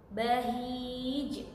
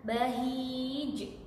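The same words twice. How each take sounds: The two takes are said the same way.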